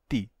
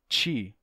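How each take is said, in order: First: The consonant is a plain t sound. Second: The consonant is a ch-like palatal sound. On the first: "o T está só na ponta da língua" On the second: "a área de contato da língua com o palato aumenta"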